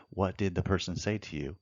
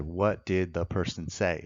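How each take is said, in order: First: Said in the usual way. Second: A slow, spelled-out question to the witness; a measured courtroom question; slow, deliberate question. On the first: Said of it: "in the red is their statement". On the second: Shown as a demonstration. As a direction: ask it slowly, word by word. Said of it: "I said".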